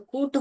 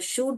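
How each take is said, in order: First: The word begins with a k sound. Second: The word begins with a sh sound. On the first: "ये क डालेंगे तो कूट हो जाएगा" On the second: "श डालेंगे तो शूट हो जाएगा"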